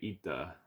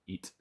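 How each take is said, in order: First: It is said with an added final vowel, Italian-style. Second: It is said plainly, ending on the t.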